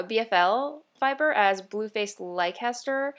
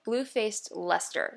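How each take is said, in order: First: "Blueface Leicester" said as Blue-face Lie-ces-ter, every letter sounded; the old mistaken way, "Blueface Leicester" read out in full; wrong take, "Blueface Leicester" with all syllables; old wrong pronunciation. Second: "Blue-faced Leicester" with Leicester said as LES-ter, two syllables; corrected pronunciation. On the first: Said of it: "I've been pronouncing". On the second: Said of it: "It's Leicester". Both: Shown as a demonstration.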